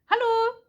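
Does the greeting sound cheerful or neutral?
cheerful. It is said in a bright, cheerful way. The speaker is having a good day. "si j'arrive et que c'est cool, que c'est une bonne journée, je fais allô"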